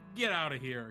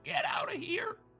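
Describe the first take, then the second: First: It is said in a plain, normal voice. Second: It is said in a horrible put-on voice.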